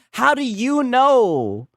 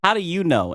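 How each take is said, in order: First: Mocking repeat. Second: Said in the usual way. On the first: Real, not acted. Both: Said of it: "And here he goes again".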